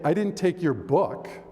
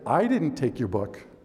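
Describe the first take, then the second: First: The word "book" carries the main stress. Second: The word "I" carries the main stress. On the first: Something else was taken instead. "I took your computer" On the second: Someone else took it. "Somebody else took it"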